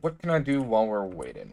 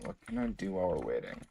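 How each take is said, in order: First: Said in the usual way. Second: Fast, soft muttered repeat; quiet mutter. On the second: Real, not acted. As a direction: mumble it to yourself. Repeats question, second muttered.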